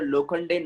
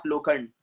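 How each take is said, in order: First: लोखंडे with the final "day" sounded; लोखंडे in three syllables ending "ay"; correct surname pronunciation. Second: लोखंड with the final "e" dropped; लोखंड stopping on "nd"; wrong surname pronunciation. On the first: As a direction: say लोखंडे with its last e voiced. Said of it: "उसको कैसे बोलेंगे आप लोग?". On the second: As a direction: say लोखंड with a silent last e. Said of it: "not लोखंड". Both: Shown as a demonstration.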